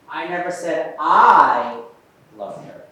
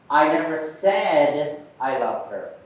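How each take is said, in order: First: The stress falls on the first word I. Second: The stress falls on the word said. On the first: Someone else said it. "Let's try the I" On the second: It was expressed some other way, not spoken. "Now let's put the emphasis on said"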